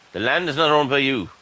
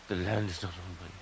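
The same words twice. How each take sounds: First: Louder, annoyed read-out of the game warning; reading the message aloud. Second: Softer, deflated repeat of the warning; resigned mutter. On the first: Gamer reads the error popup to viewers, loud and annoyed. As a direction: announce the error with irritation. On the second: Gamer repeats the error message to himself, quiet and resigned. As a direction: say it again under your breath, giving up. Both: Real, not acted.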